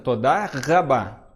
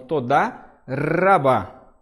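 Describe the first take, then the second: First: The R is pulled from the back of the throat. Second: The R is a light trill at the tongue tip. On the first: "é você puxar lá da garganta" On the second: "só que um pouco tremido"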